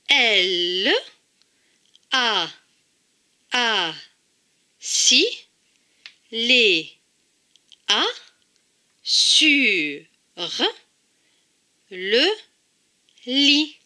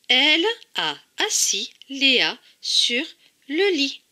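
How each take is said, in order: First: It is said slowly, pausing between syllables. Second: It is said at normal speed, without pauses.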